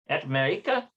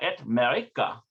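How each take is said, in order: First: The voice rises at the end like a question. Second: The voice falls at the end like a statement. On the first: It asks where someone is from. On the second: It states where someone is from.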